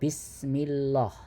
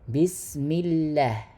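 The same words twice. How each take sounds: First: The l sound is heavy and thick. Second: The l sound is light and thin. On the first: The speaker calls it wrong. "kalau bismillah itu tebal" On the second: The speaker calls it right. "Bismillah dibaca tipis"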